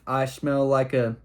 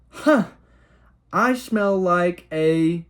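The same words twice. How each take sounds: First: Said in the usual way. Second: Put-on high, slow, innocent child's voice; innocent kid voice. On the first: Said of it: "I don't know what I was trying to say with". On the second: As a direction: blurt it out like a clueless little kid, drawn out. Kid blurting on the dock.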